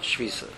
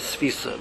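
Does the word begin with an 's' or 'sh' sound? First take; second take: sh; s. First: The word begins with a sh sound. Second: The word begins with a plain s sound. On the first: The speaker calls it wrong. "not shvisa" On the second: The speaker calls it right. "I think the actual word is svisa"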